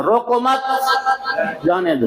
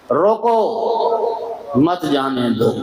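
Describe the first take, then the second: First: روکو مت lifted high, then a clear stop before جانے دو; same sentence with the stop moved so the meaning flips; moved pause. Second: روکو مت جانے دو said slowly as one drawn-out phrase; a slow first reading of روکو مت جانے دو, before the pause is moved; first reading of the pause example. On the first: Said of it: "اب یہی جملہ وقف بدلنے لگا". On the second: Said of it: "استاد سناتے تھے نا". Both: Shown as a demonstration.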